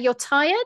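The voice rises at the end. The speaker is asking and inviting a reply. "that's an offer"

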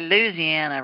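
It is said in a Southern accent.

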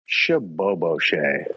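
It is said in a sad way.

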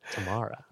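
The name is said in a Southern accent.

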